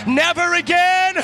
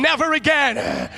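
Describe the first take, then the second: First: "never again" louder, higher, slow, "again" stretched; louder shouted declaration. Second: "Never again" said slow and firm, stress on "Never"; firm declaration. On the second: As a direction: say "Never again" slowly, leaning on "Never". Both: Shown as a demonstration. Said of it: "tell them, never again".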